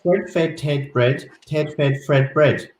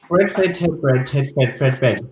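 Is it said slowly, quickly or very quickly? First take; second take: quickly; very quickly. First: It is said fairly quickly. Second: It is said very quickly.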